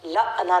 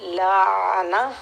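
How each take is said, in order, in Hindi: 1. 'ain' को झटके के साथ बोला जाता है। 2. 'ain' को बिना झटके के स्थिर रखा जाता है। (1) "आइन को झटका नहीं देना, लाना लाना नहीं बोलेंगे" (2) "आइन को साकिन करेंगे, सुकून देंगे"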